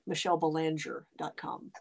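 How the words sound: The name is said with an American English pronunciation.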